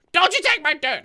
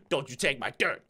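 First: Loud, higher playful threat; loud warning. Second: Said in the usual way. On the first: Acted. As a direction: warn it off loudly. Warning a mob over dirt.

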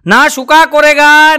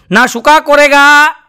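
First: Put-on slow, drawn-out Nepali-accented recital; mock Nepali accent, slowed right down; Nepali guard repeats it. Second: Put-on slow, drawn-out Nepali-accented shayari; mock Nepali accent, stretched out; Nepali guard's mangled Hindi. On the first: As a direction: stretch every word like the proud watchman. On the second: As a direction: recite it slowly like the Nepali watchman. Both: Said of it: "એણે કીધું".

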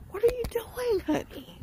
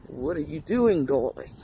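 First: Squeaky high sing-song question; high put-on voice. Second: Lower, throaty drop on darling; low put-on voice. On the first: Vlogger greets her viewers in a high, squeaky put-on voice. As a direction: pitch it way up, teasing. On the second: Vlogger repeats the greeting in a low put-on voice. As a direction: bring it down low and sultry-teasing. Same line redone low.

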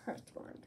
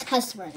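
First: "curse word" with R in "curse", said softly; curse pronunciation. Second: "cuss word" with short uh in "cuss"; the rejected "cuss", no R before the S; cuss pronunciation. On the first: Vlogger giving viewers the right word, softly R-coloured "curse". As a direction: drop quieter on the corrected "curse", er vowel. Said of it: "It's a curse word". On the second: Vlogger repeating the correction at sign-off, R-less "cuss". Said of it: "it's not pronounced cuss word". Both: Shown as a demonstration.

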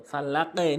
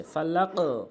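First: ফালাকে with the echo bent to e; wrong downward qalqala. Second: ফালাক ending in a rounded o echo; upward qalqala. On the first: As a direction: drop the final bounce of ফালাকে into e. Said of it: "নিচের দিকে বলা যাবে না". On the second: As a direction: bounce the final q of ফালাক toward o. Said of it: "উপরের দিকে". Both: Shown as a demonstration.

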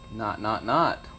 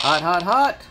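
First: Said in the usual way. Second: Loud, high "Hot, hot, hot"; excited "hot". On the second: Real, not acted. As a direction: call out "Hot, hot, hot" like a find. Geiger counter finds radiation.

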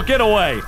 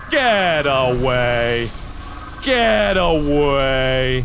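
First: Said in the usual way. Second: Low, very slow "Get away"; "Get away" dragged out long and low; slow drawn-out plea. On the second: Real, not acted. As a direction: stretch out "away" in a low moan. Drawn-out repeats while fleeing.

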